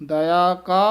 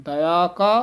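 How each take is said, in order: No difference in how they are said.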